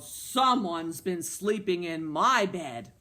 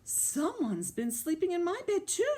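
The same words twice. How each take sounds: First: Slow, loud storybook growl; lightly gruff, drawn-out papa bear. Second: High storybook mama bear; high, put-out mother bear. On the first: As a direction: growl it slowly as the big bear. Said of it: "Papa Bear growled". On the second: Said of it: "said Mama Bear". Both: A narrator's reading.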